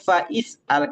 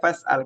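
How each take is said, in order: First: An extra 'i' syllable is voiced after fa. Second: No extra syllable is voiced after fa. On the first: The speaker calls it wrong. "Bukan fa'is'al" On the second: The speaker calls it right. "Cuma dibaca fas'al"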